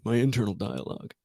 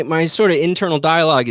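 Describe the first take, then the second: First: Soft, self-mocking echo; mocking himself. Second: Said in the usual way. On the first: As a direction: repeat it quietly as if it sounds stupid. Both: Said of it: "that sounded really stupid".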